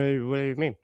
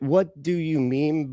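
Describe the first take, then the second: First: It is said in a slurred, drunk voice. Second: It is said in a clear, sober voice.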